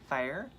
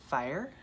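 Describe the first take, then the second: No difference in how they are said.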